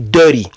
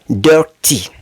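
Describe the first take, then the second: First: It is said with an American accent. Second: It is said with a British accent.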